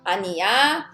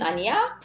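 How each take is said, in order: First: The pitch falls or stays level at the end. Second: The pitch rises at the end. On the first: It is a statement. "casual form" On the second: It is a question. "If it's question 아니야, all you need to do is intonation up"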